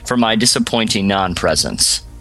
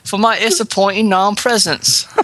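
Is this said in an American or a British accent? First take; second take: American; British. First: It is said in a plain American accent. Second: It is said in a put-on British accent.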